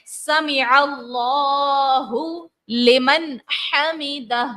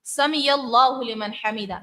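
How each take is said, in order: First: سمع with a clear ain, slow and drawn; correct ain. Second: سمع said as سمیا without the ain; wrong ain. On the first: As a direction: recite slowly with the throat ain in سمع. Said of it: "درست تلفظ کیا ہے". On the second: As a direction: demo the mistake, ain turned to ya. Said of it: "اس طرح سے". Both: Shown as a demonstration.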